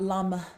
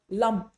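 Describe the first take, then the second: First: The final consonant has extra air or vowel. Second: The word ends cleanly on the final consonant. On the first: The speaker calls it wrong. "not lum" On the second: The speaker calls it right. "So lum"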